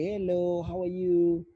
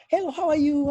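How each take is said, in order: First: It is said slowly and drawn out. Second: It is said with extreme excitement.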